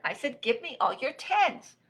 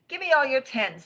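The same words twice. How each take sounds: First: High, annoyed repeated demand; insist, having been ignored; insistent shout. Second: High, loud, brisk request; card-game demand. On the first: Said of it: "shouted Rabbit". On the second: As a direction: eagerly demand the cards. Rabbit demands cards in game. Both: Acted.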